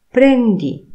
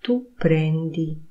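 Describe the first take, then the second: First: "Prendi" much higher and louder, sharp fall; commanding tune. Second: Said in the usual way. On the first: Shown as a demonstration. Teacher contrasts a statement with the order "Prendi". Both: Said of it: "A jak jest w trybie oznajmującym".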